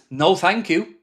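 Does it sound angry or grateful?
angry. It sounds like an angry, dismissive refusal.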